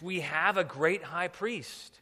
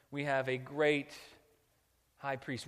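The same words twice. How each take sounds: First: "We have a great high priest" slow, raised and louder; "We have a great high priest" proclaimed deliberately, word by word; emphatic repeat. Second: Said in the usual way. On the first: Real, not acted.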